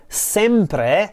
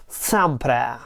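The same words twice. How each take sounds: First: Said in the usual way. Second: SEMPRE with both vowels opened, like "sam-prah"; cursive pronunciation. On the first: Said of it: "She modifies the vowels". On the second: Retold or imitated. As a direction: say SEMPRE cursive-style, E's bent toward A. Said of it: "she says something like sempre".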